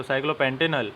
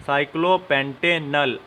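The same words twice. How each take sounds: First: Said in the usual way. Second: साइक्लोपेंटेनल said slowly, syllable by syllable; teacher slowly dictates साइक्लोपेंटेनल; slow dictation. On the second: Shown as a demonstration. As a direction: spell out साइक्लोपेंटेनल slowly for the class. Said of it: "तो साइक्लोपेंटेनल".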